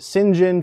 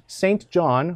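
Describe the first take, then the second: First: It is shortened to two quick syllables: Sinjin. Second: Both words are said in full: Saint John. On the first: "or as the British would say" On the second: "a guy named Saint John"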